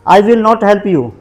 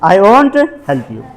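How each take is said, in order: First: Will and not are said as separate words. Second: Will and not merge into one contracted word. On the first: "मैं पूरा बोल रहा हूँ" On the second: "तुम्हें contraction form का प्रयोग करना है"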